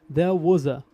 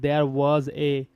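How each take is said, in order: First: 'Was' and 'a' run together without a break. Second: 'Was' and 'a' are said as separate words. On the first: The speaker calls it right. "That's why it will link here as well" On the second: The speaker calls it wrong. "not there was a"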